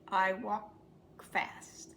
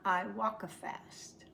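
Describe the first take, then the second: First: A brief break separates walk and fast. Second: An extra vowel joins walk and fast. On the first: The speaker calls it right. "There's a little break" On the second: The speaker calls it wrong. "but not"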